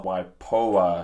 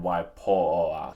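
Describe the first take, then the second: First: "外婆" slowly, 婆 with an O vowel. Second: "外婆" slowly, 婆 opened towards AR; open AR vowel. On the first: Comparing with the film's pronunciation, O vowel. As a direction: stretch "外婆" with a rounded O in 婆. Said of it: "his one is more like an O". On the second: Showing own mistaken pronunciation, open AR vowel. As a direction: stretch "外婆" with an open AR in 婆. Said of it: "my one's more like an R". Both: Shown as a demonstration.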